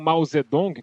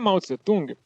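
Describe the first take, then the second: First: The name ends with a 'dong' sound. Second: The name ends with a 'tung' sound. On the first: The speaker calls it right. "que é a pronúncia correta" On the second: The speaker calls it wrong. "a gente falava um monte de coisa errada"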